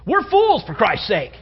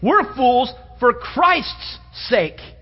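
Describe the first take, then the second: First: It is said as a plain statement. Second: It is said expressively, not as a plain statement.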